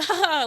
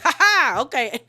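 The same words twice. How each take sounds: First: A fake, taunting "ha, ha" pitched up; mock her with a sarcastic little laugh. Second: A louder, pitched-up sarcastic "ha, ha" then a dismissive okay; mocking laugh back. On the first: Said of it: "trying to mock Sutton in a way". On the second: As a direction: throw the mock laugh right back at her. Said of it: "Sutton starts mocking her back".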